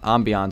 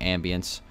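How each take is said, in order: First: The word is said in a fancy, French-sounding way. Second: The word is said in a plain, ordinary way.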